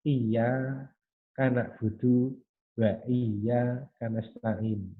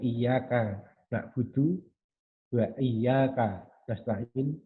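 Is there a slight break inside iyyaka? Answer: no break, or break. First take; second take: break; no break. First: A slight break comes after iyya, before ka. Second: Iyyaka is said as one unbroken word. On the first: The speaker calls it wrong. "ada semacam split yang yang tipis sekali" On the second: The speaker calls it right. "yang harusnya seperti itu"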